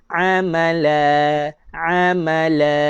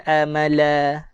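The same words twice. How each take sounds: First: "amala" begun with a pharyngeal ain, drawn out slowly; slow, stretched "amala" with a true Arabic ain; correct ain. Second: "amala" begun with a plain glottal hamzah, no throat squeeze; ain read as hamzah. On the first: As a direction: model "amala" with a squeezed throaty first a. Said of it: "Nak baca dengan huruf ain". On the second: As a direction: show the wrong "amala" with a simple a. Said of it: "bukan amala". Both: Shown as a demonstration.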